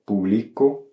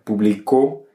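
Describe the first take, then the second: First: Slow publico, weight on BLI; stress on middle syllable. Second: Publicó landing firmly on the final CÓ; stress on last syllable. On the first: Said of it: "donc pas d'accent". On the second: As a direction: push the weight to the end of publicó, pu-bli-CÓ. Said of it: "selon la place de l'accent". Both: Shown as a demonstration.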